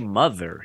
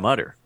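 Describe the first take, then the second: First: The middle consonant is a soft th sound. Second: The middle consonant is a hard t sound. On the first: "he wouldn't say mother" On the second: "He would say mutter"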